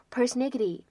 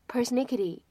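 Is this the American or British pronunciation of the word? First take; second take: American; American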